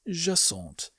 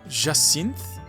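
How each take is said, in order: First: The ending of the name is pronounced French. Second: The ending of the name is not pronounced French. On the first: The speaker calls it right. "Her name is Jacinthe" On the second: The speaker calls it wrong. "I definitely mispronounced her name. The ja part is more or less correct, but I butchered the rest of it"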